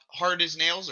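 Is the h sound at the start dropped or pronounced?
pronounced. It starts with a clear h sound.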